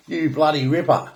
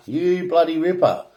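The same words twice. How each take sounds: First: Aussie slang. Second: Australian accent, lifted and punchy on bloody; a mate cheering in broad Australian; Aussie exclamation. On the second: To viewers, an Aussie cheering you bloody ripper, broad accent. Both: Shown as a demonstration. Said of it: "Aussie slang".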